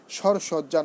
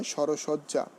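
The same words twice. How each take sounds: First: সরসজ্জা as shor-shojja, no linking vowel; wrong pronunciation. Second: সরসজ্জা as shoro-shojja, linking o sounded; correct pronunciation. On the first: Teacher showing students what to avoid, wrong pronunciation. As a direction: say সরসজ্জা with r straight into sh. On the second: Teacher correcting the compound for students, correct pronunciation. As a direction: say সরসজ্জা with an o after r. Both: Shown as a demonstration. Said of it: "নয়".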